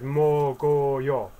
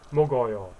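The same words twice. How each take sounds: First: "mogoyo" stretched out syllable by syllable; slow pronunciation demo. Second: Said in the usual way. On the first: Shown as a demonstration. Teacher showing go going into the zero, slow "mogoyo". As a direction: sound out "mogoyo" slowly. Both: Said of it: "so it's".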